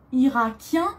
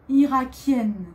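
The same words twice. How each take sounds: First: Irakien ending on a nasal vowel, no n; teacher contrasts Irakien with its nasal ending; masculine irakien. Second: Irakienne with a clear n at the end; teacher contrasts irakienne with the final n sounded; feminine irakienne. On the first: Teacher comparing both forms for the class, nasal ending. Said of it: "masculin, pour un garçon". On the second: Teacher comparing both forms for the class, n sounded. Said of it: "Pour une fille". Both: Shown as a demonstration.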